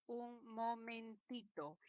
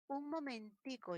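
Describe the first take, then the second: First: Un momentito with -ito ending, slowly; plain Spanish momentito; standard diminutive. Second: Un momentico with -ico ending; Cuban-style momentico; Caribbean diminutive. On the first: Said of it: "En lugar de decir momentito". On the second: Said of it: "En lugar de decir momentito, dice". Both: Shown as a demonstration.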